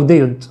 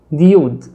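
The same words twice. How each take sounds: First: ديود said as day-ood with an ay sound; ديود as day-ood, ay then ood; alternative pronunciation. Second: ديود said as dee-ood, two syllables; English pronunciation try. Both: Shown as a demonstration. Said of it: "مش عارف ديود ولا ديود".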